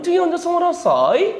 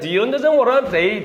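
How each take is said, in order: First: It is said in an imitated British accent. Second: It is said in an imitated Indian accent.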